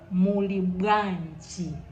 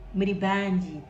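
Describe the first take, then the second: First: The phrase is said deeper and fuller. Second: The phrase is said lightly, without depth. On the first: The speaker calls it right. "Make the words sound deeper" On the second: The speaker calls it wrong. "A lot of people say muli bwanji as in muli banji"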